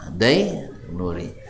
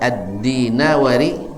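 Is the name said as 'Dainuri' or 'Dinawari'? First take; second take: Dainuri; Dinawari. First: It is shortened to three syllables, 'Dainuri'. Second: It is said with four syllables, 'Dinawari'. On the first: The speaker calls it wrong. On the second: The speaker calls it right.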